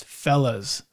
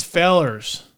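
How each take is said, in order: First: "fellas" ending in a plain ah sound, no r; city pronunciation. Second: "fellers" with an r-colored ending, fell-ers; country pronunciation. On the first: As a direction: say "fellas" the uptown way, like fell-uhs. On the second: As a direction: say "fellers" the small-town way, with the r at the end. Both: Shown as a demonstration. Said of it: "gotta get your lingo right".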